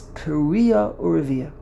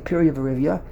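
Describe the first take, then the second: First: The second word begins with a 'u' sound. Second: The second word begins with a 'v' sound. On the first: The speaker calls it right. "The correct way to pronounce the term is Piria Urivia" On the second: The speaker calls it wrong. "He said it's clearly wrong"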